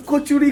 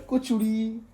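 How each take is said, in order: First: Said in the usual way. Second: kachori drawn out, pitched much higher; stress on kachori. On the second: Shown as a demonstration. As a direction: savor kachori, high and lingering.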